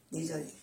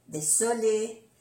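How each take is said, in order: First: "désolé" with a voiced z, softer. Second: "désolé" with an unvoiced s; double S. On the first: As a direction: say "désolé" softly with a buzzing z. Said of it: "como si fuera una Z suave". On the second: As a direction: say "désolé" with a hissed s. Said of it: "es importante pronunciar bien las dos S". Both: Shown as a demonstration.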